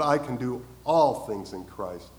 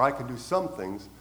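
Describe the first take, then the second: First: "all" leaned on, slow; slow down and land hard on "all"; stress on ALL. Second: "some" said as the plain, lesser word; stress on some. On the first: Preacher correcting the verse to the congregation, "all" emphasized. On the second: Preacher contrasting the wrong verse, "some" unstressed. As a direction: let "some" sit flat as the wrong version. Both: Shown as a demonstration. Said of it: "You notice the word all?".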